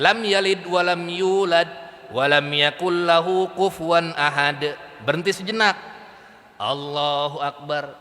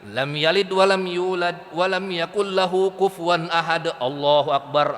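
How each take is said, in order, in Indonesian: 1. Ada jeda singkat sebelum frasa terakhir. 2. Frasa terakhir langsung diikuti tanpa jeda. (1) "Berhenti sejenak" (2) "ngegas gitu, ngegas terus"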